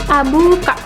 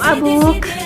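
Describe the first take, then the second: First: The word ends with a final vowel sound. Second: The word ends on a consonant, vowel dropped. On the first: "contohnya abuka" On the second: "berada di akhir kalimat itu biasa dibaca menjadi abuk gitu"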